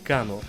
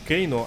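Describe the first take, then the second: First: The first vowel sounds like 'ah'. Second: The first vowel sounds like 'ay'. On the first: The speaker calls it wrong. "а не Кано" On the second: The speaker calls it right. "сам только недавно стал говорить Кейно"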